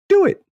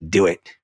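First: It is said in a squeaky Mickey Mouse voice. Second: It is said in a raspy Emperor Palpatine voice.

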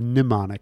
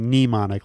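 First: The first vowel is a weak schwa. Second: The first vowel sounds like 'knee'. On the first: "Or I guess you could do a schwa" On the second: "I say mnemonic, like you with do. My knee"

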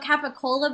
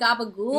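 First: It is said in a plain American accent. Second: It is said clipped in a Jersey Italian accent. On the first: "I'm going to say it, like, just like an American" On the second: "Jersey Italian accent"

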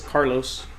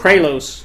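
First: The name begins with the sounds 'car'. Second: The name begins with the sounds 'kra'. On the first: The name is said as its owner says it. The speaker calls it right. "it's Carlos" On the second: The name was misread. The speaker calls it wrong. "get your name wrong"

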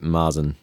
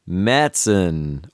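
First: The first vowel is a plain a sound. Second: The first vowel is an umlaut ä sound. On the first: The speaker calls it wrong. "some people pronounce it Marzen" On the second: The speaker calls it right. "It's an A with an umlaut, so it should be Märzen"

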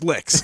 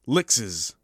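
First: The name is said with one syllable. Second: The name is said with two syllables. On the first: The speaker calls it right. "We're calling him Lix because I like it" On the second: The speaker calls it wrong. "That's not how I should say it"

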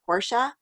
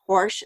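First: The final e is sounded, two syllables. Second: The final e is silent, one syllable. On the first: This is the way people should switch to. The speaker calls it right. "instead of Porsche" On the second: This is the habitual way from the 80s. The speaker calls it wrong. "so ingrained into at least my generation to use the word Porsche"

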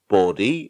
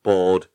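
First: The name sounds like the word 'body'. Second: The name does not sound like 'body'. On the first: "saw it was pronounced body" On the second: "I was pronouncing it Bode"

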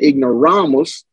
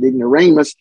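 First: The word is pronounced the Latin way. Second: The word is pronounced the English way. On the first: "in Latin, we would pronounce that ignoramus" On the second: "In English, we would pronounce it ignoramus"

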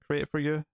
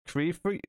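First: The first word sounds like 'create', with the final t. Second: The first word sounds like 'cree', without the final t. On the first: "That's probably what it's meant to be said" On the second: "I don't know how you're supposed to pronounce that"

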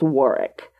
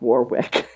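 First: The middle W sound is silent. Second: The middle W sound is pronounced. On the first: The speaker calls it right. "It is pronounced Warwick, as in W-A-R-R-I-K" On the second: The speaker calls it wrong. "is not pronounced Warwick"

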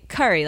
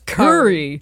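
First: It uses the speaker's own non-Texan pronunciation. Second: It imitates the Texan pronunciation of the word. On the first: "I didn't know that I pronounced curry weird until I moved to Texas. And I'd say curry" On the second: "people down there were like, curry? It's curry"

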